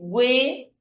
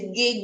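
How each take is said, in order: First: The u after the g is clearly pronounced. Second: The u after the g is silent. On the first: "Aquí pronuncio la U" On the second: "Aquí la U es muda"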